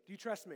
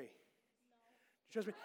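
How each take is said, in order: First: Said in the usual way. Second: Drawn-out, very slow and ominous; mock sinister ask; teasing slow question. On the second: Shown as a demonstration. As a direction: stretch it out to tease the kid.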